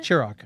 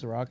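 First: Ciroc said with a "ch" start, chi-ROCK; "Ciroc" opening like "cheer"; mispronounced Ciroc. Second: Ciroc with an s start, suh-ROCK; "Ciroc" opening with s, not ch; corrected pronunciation. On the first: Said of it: "how do you pronounce it". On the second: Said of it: "Oh, is it Ciroc?". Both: Real, not acted.

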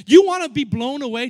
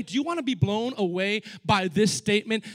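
First: Loud challenge. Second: Said in the usual way. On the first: Acted. Preacher's loud question.

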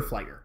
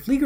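First: Flieger said as FLY-ger; long i, as in "fly", in Flieger; FLY-ger pronunciation. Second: Flieger said as FLEE-ger; long ee in the first syllable of Flieger; FLEE-ger pronunciation. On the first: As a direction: say Flieger to rhyme with "tiger". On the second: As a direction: say Flieger to rhyme with "eager". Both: Shown as a demonstration. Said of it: "Is it Flieger or Flieger?".

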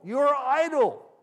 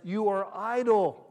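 First: Much higher and louder, slow "You are idle"; escalating shout. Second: Loud, slow accusing "idle"; stern accusation. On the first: Pharaoh shouting at the Hebrews, furious escalation. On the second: Pharaoh scolding the Hebrews, loud and stern. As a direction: accuse them of laziness. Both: Acted.

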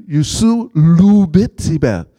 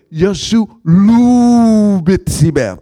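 First: "Yusu lubit тебя" haltingly mispronounced, opening with "Yusu"; slow learner's attempt at "Yusu lubit тебя", first word off as "Yusu"; purposely wrong Russian. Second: "Yeshu lu bitsiber" slow and loud, "lu" drawn out long; corrected Russian. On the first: Evangelist botching "Yusu lubit тебя" on purpose for Alex, deliberately wrong Russian. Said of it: "I'd say it wrong purposely". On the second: Retold or imitated. Alex correcting the learner's "Yeshu lu bitsiber", emphatic slow pronunciation. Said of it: "You're saying it wrong".

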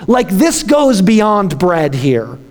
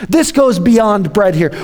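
First: "this" leaned on, whole line slowed down; slow stress on this. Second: Said in the usual way. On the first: Shown as a demonstration. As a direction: drag it out and press "this".

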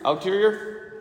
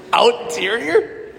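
First: Unsure of the word. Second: Slow, laughing retry of the word "Outerior". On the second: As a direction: stretch out "Outerior" through a laugh. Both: Real, not acted. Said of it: "Is that even a word?".

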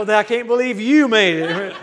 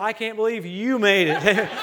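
First: Very loud laughing comeback, "you" stretched and stressed; slow, booming mock astonishment on "you"; buddies' retort. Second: Loud and drawn out, "you" stressed in amused astonishment; slow, laughing disbelief with "you" punched; teasing disbelief. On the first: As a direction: throw it back louder, hammering "you". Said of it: "And they'll go". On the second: Acted. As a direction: lean hard on "you", laughing at a buddy. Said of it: "look at some of my buddies".

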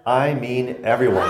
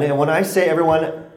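First: Slow, with weight on everyone; slow down and land everyone; stress on everyone. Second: Said in the usual way. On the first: Shown as a demonstration.

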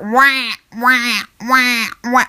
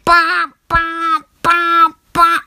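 First: Clumsy wailing alarm imitation; badly imitated alarm blare; bad iPhone alarm. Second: High, louder honking alarm imitation; insistent high alarm honk; better iPhone alarm. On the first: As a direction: wah out a poor phone alarm. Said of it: "this is such a bad iPhone alarm sound". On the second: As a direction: blare it like a phone alarm, evenly repeated. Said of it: "That's better".

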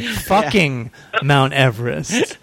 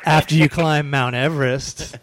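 First: Fucking drawn out and stressed, slowly. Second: Said in the usual way. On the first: Shown as a demonstration. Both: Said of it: "That's better".

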